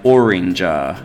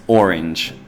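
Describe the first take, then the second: First: An extra vowel sound is added after the final consonant. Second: The word ends lightly without an added vowel. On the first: The speaker calls it wrong. "Children often say I like oranger" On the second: The speaker calls it right. "but it's just orange"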